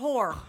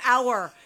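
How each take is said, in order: First: The word starts with an audible h sound. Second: The word starts with no h sound. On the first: The speaker calls it wrong. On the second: The speaker calls it right. "The H is silent"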